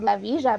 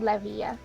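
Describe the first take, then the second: First: Villa is said with the Argentine pronunciation. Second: Villa is said without the Argentine pronunciation. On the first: The speaker calls it right. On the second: The speaker calls it wrong.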